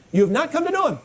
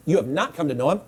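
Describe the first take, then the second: First: "know" hit much higher, then falling; emphasized repetition. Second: Said in the usual way. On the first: Shown as a demonstration. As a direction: lift "know" high and bring it down hard. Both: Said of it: "I, I emphasized it".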